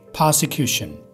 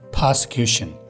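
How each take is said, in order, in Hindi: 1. यह मूल अंग्रेज़ी लहजे में बोला गया है। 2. यह मूल अंग्रेज़ी लहजे में बोला गया है।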